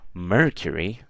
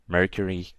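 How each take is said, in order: First: The word is said with extra stress. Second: The word is said plainly, without extra stress. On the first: It is a keyword hinting at something else. "if I give a certain stress to that word" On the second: It is not a keyword. "saying Mercury is nothing"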